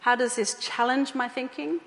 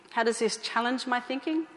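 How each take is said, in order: Both takes have the same delivery.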